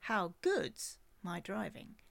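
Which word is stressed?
good's. The stress falls on the word good's.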